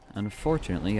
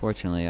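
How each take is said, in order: First: The opening 'un' is pronounced clearly and distinctly. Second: The opening 'un' is swallowed and barely heard. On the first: The speaker calls it right. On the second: The speaker calls it wrong.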